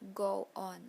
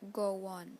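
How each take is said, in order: First: No extra sound comes between the words. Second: An extra sound links the two words.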